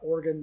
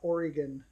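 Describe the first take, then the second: First: The word sounds like the body part 'organ'. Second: The word sounds like the state name 'Oregon'. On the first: It refers to the body part. The speaker calls it wrong. "We're not talking about Oregon, the body part" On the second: It refers to the state. The speaker calls it right. "We're talking about Oregon, the state"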